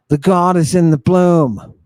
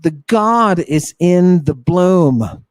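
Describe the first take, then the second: First: The God is IN the bloom, weight on in; stress on in. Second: The God is in the bloom, slowed with weight on God; slow stressed line. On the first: Teacher repeating the phrase, now stressing in. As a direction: hit the word in. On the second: Teacher stressing the key phrase, slow and weighty. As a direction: lean on God slowly. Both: Shown as a demonstration.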